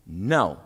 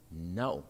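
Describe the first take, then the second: First: "No." low and firm, a touch louder; emphatic no. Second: "No." lower and softer, quietly defiant. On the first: We answer those who say make America great, emphatic. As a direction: land "No." like a slammed door. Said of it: "We say emphatically". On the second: We answer those who say go home, quiet defiance. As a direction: hold "No." low and unmoved. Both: Acted.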